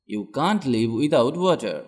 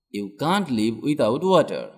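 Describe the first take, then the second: No difference in how they are said.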